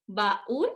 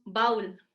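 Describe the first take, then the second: First: "Baúl" in two syllables, ba-ÚL; hiato marcado. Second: "baúl" as one syllable, BAUL; diptongo incorrecto. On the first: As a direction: split "Baúl" before a strong, stressed ú. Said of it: "No decimos baúl, ¿o sí?". ("Baúl" con hiato, ba-ÚL, en dos sílabas) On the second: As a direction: run the vowels of "baúl" together, like "bowl" with an ow. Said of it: "No decimos baúl". ("baúl" con diptongo, BAUL, en una sílaba) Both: Shown as a demonstration.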